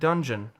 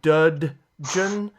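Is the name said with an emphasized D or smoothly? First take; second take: smoothly; emphasized. First: The name flows smoothly without D emphasis. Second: The D sound is clearly emphasized. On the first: "just kind of roll off your tongue like dungeon" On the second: "Is there an emphasis on the duh duh, the like dudgeon"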